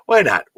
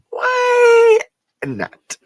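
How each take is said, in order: First: Said in the usual way. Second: Mock high stretched why not. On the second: Shown as a demonstration.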